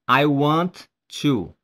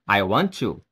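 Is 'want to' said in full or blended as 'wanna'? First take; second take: in full; wanna. First: The words 'want to' are said separately and in full. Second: The words 'want to' are blended into 'wanna'. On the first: The speaker calls it wrong. "You don't say I want to" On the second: The speaker calls it right. "You say I want to"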